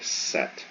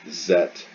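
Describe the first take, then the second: First: The word begins with a voiceless S sound. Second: The word begins with a voiced Z sound. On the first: The speaker calls it right. "your vocal cords are not vibrating when you say set" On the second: The speaker calls it wrong. "If you say zet, then you're doing it wrong"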